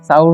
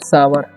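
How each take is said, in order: First: It is said as one gliding syllable, saur. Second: It is said as two syllables, saa-var. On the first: The speaker calls it wrong. "साउर नहीं पढ़ना है" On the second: The speaker calls it right. "इसे पढ़ते हैं सावर"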